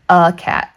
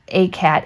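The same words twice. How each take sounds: First: The article is said as a reduced 'uh' vowel. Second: The article is said with a full 'ay' vowel. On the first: The speaker calls it right. "We say a cat" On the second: The speaker calls it wrong. "we don't say a"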